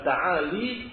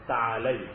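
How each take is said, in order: First: The word ends in a plain 'i' sound. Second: The word ends in an 'ai' sound. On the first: The speaker calls it wrong. "bukan ta'ali" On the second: The speaker calls it right. "yang lebih tepat ... ta'alai"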